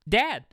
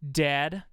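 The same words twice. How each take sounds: First: It sounds happy and childlike. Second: It sounds cold and resentful.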